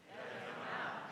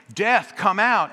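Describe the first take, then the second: First: Barely breathed, unvoiced; whisper. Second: Loud, high, slow call; booming call. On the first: Cold congregation answering the pastor, faint whisper. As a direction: mumble it like a frozen crowd. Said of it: "And we would say". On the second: Retold or imitated. Pastor pounding on the doors, loud slow booming call. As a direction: hammer the words like pounding a door. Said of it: "Bam, bam, bam".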